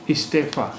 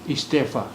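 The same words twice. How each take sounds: No difference in how they are said.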